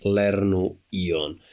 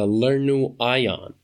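First: "Ion" said "EE-on", the Esperanto way; "Ion" opening with an "ee" sound; Esperanto pronunciation. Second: "Ion" said "EYE-on", the English way; anglicized "Ion", opening like "eye"; English pronunciation. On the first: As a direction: say "Lernu Ion" as "LEHR-noo EE-on". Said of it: "the correct way to pronounce it". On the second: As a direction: say "Lernu Ion" with an English long i in "Ion". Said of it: "actually an English pronunciation". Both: Shown as a demonstration.

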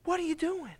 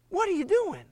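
First: Incredulous God. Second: Much higher, pleading disbelief; higher echo of disbelief; high incredulous disbelief. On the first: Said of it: "God up in heaven is like". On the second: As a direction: ask in stunned dismay. Repeats God's question, stronger. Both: Acted.

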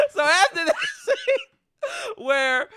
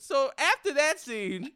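First: Slow, laughing, higher words; laughing through words. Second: Said in the usual way. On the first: Real, not acted. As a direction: try to talk through real laughter. Laughing while retelling the scene.

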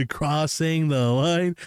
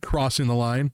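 First: Slow, drawn-out playful echo; exaggerated slow-motion repeat; mock echo. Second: Said in the usual way. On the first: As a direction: stretch every word teasingly.

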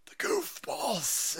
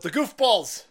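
First: High, slow, stretched word; sing-song it up high, stretching it out; high, lingering mock wail; drawn-out comic echo. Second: Loud, punchy call-out; playful loud outburst; mock exclamation. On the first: Second take, drawn out. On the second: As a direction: announce it with a loud comic kick. First take, called out.

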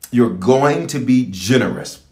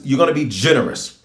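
First: "going" drawn out, each word slowed; slow emphatic repetition. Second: Said in the usual way. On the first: Real, not acted. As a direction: stretch "going" to drive the promise home. Point repeated, slowed for emphasis.

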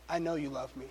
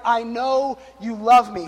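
First: Much softer, awed murmur; quietly moved; hushed awe. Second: Slow, drawn-out heartfelt words; slow and reverent. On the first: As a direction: say it softly as if to heaven. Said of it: "She goes". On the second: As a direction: let each word land like a prayer. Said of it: "looked up to God in heaven and was like". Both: Retold or imitated.

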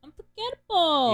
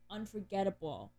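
First: Loud, high, dramatic "Unforgettable"; gushing exclamation. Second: Said in the usual way. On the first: Real, not acted. Fan raving about a beloved musical's score, loud gushing exclamation.

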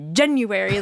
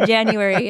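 First: January with the first syllable punched hard; forceful mimicked "January"; dad's January. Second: Said in the usual way. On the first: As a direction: exaggerate the opening of January like dad. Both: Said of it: "it's not just January".

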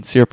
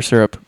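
First: "Syrup" pronounced SEER-up. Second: "syrup" pronounced SUR-up. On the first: Breakfast judge polls the table, "Syrup" as SEER-up. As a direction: open "Syrup" with the sound of seer. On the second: Breakfast judge polls the table, "syrup" as SUR-up. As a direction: open "syrup" with the sound of sir. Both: Shown as a demonstration. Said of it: "Side discussion".

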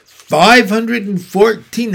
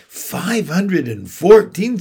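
First: High, loud and proud count. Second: Slow, high astonished echo. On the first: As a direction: announce the number proudly. Charlotte proudly answers. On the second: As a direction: echo the number in disbelief. Wilbur astonished. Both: A narrator's reading.

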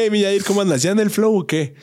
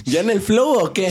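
First: Higher, playful mock hello; lightly voiced own catchphrase; imitating the greeting. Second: A higher mock greeting; teasing impression of his hello; imitating his greeting. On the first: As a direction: ham up the friend's greeting. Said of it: "le dije". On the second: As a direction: copy his catchphrase playfully. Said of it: "su típico saludito".

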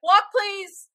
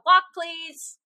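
First: High, sing-song usher call; mock usher call. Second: Mock usher call. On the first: Telling teenagers in the hallway, mock usher call. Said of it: "and being like". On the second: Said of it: "all of them heard me go".

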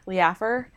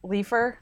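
First: "Leafer" said as lee-AFF-er, questioning; three-syllable pronunciation. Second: "Leafer" said as LEE-fer, questioning; two-syllable pronunciation. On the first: Second guess at a listener's name, "Leafer" said lee-AFF-er. Trying two ways to say name. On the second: Checking a listener's name, "Leafer" said LEE-fer. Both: Shown as a demonstration.

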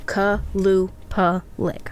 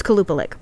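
First: Slow, separated syllables in "Kalupalik". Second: Said in the usual way. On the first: Shown as a demonstration. Teaching herself the name, slowly syllable by syllable. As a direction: sound out "Kalupalik" as ka, lu, pa, lik. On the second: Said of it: "so it's Kalupalik".

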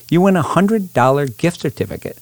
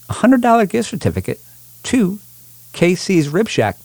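First: Said in the usual way. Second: Big game-show prize call; booming prize announcer. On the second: Acted. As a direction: hype the prize up high. Hypes the prize on the radio.

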